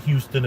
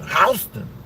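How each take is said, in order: First: It is said like the city's name. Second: It is said the way a German would. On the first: "we don't say Houston in New York" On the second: "you say it like a German"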